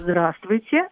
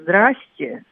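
First: The greeting is said fully, every syllable pronounced. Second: The greeting is clipped, with syllables dropped. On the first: The speaker calls it right. "а «здравствуйте». Оно нейтральное" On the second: The speaker calls it wrong. "в устной форме ни в коем случае не «здрасте»"

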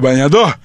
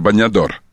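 First: The word ends without its final consonant. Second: The word ends with its final consonant.

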